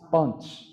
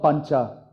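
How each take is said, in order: First: The word ends on a consonant, no vowel. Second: The word ends with a short final vowel. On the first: This is the modern North Indian form. "You don't pronounce the phoneme" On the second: This is the traditional chanted form. "it's not pancha"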